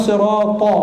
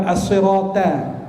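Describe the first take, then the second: First: Sirata ending in a heavy, rounded "to"; thick ta. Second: As-sirata ending in a light, flat "ta"; thin ta. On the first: Preacher correcting recitation, sirata with a thick ta. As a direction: say sirata slowly with a dark emphatic t. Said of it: "Ta tebal". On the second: Preacher showing what to avoid, as-sirata with thin ta. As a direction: say as-sirata slowly with a plain front t. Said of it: "bukan ta". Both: Shown as a demonstration.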